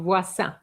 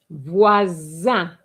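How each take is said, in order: First: The middle consonant is a hissing s sound. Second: The middle consonant is a buzzing z sound. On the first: The speaker calls it wrong. "and not" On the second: The speaker calls it right. "An S between two vowels gives you what sound? ... Z"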